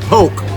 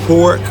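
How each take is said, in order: First: The word is said without an r sound. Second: The word is said with an r sound. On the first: This is how the speaker's own community says it. "We call it poke" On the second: This is how other people say it. "Some people pronounce it pork"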